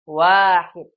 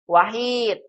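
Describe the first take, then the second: First: The first vowel is said long. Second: The first vowel is said short. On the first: The speaker calls it right. "Harus benar panjang pendeknya" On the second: The speaker calls it wrong. "Jangan dibaca wahid"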